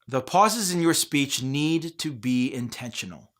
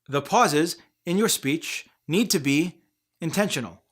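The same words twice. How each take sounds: First: It slows down at a few chosen places. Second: Pauses break up the sentence every few words. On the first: The speaker calls it right. "try slowing down in certain places" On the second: The speaker calls it wrong. "Speech voices often pause way too much, like this"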